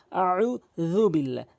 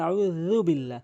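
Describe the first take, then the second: First: আউযু slowed, the জাল said with the tongue tip on the front teeth; slow, careful আউযু বিল্লাহ the right way; correct pronunciation. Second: আউযু বিল্লাহ with a plain z, the common mistake; wrong pronunciation. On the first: Teacher giving the correct আউযু after the mistake. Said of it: "জালটি জিহ্বার আগা ... দাঁতের আগা থেকে". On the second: Teacher mimicking how most people say আউযু. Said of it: "এখানে আউযু বিল্লাহ হবে না". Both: Shown as a demonstration.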